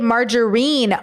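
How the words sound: It is said with a British pronunciation. "They say it margarine. ... You do the British pronunciation?"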